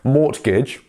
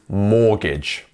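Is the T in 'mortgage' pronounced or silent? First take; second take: pronounced; silent. First: The T sound is pronounced in the middle. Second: The T sound is left out entirely. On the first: The speaker calls it wrong. "it's not mortgage" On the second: The speaker calls it right. "but it is mortgage. So miss out that T completely"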